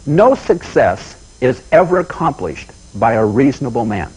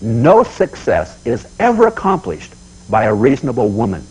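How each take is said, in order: First: "No" leaned on, each word slow and deliberate; slow weighty quote. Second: "ever" leaned on, each word slow and deliberate; solemn slow repeat with weight on "ever"; slow emphatic repeat. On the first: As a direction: deliver it slowly like a motto, hitting "No". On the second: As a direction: repeat the motto slowly, hitting "ever". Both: Shown as a demonstration. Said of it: "Let me say it again".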